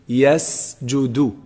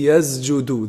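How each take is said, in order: First: The consonant before the j sounds like s. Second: The consonant before the j sounds like z. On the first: The speaker calls it right. "but it's actually yasjudu" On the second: The speaker calls it wrong. "a very common mistake in this, they say yasjudu. They say it as a za"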